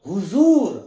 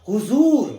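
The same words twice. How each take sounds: The two takes are said the same way.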